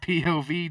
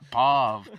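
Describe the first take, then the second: First: It is spelled out as three separate letters. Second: It is pronounced together as a single word. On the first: The speaker calls it right. "it's P O V, dude" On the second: The speaker calls it wrong. "It's not P O V. You don't say the whole fucking. It's not a word"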